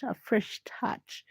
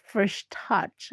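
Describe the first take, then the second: First: Slow breathy whisper. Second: Said in the usual way. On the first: Shown as a demonstration. Repeats phrase, second take whispered.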